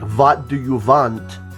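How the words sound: A Russian accent, with w sounds said as v. "they changed a lot of the letters around, like W's to V"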